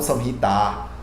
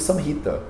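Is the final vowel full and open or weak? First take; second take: full; weak. First: The final vowel is full and open. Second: The final vowel is weak and reduced. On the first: The speaker calls it wrong. "e não" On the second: The speaker calls it right. "Vocês vão me ver pronunciando"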